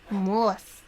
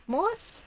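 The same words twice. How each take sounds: First: "Mousse." said flat and falling, like a final answer; settled fall. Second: "Mousse?" with a high, questioning rising tune; questioning rise. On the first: To stream chat, settling on the word, "Mousse." falling and firm. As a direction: land "Mousse." firmly downward. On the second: To stream chat, playing with French words, "Mousse?" swooping up. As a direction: ask "Mousse?" with a big upward swoop. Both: Real, not acted.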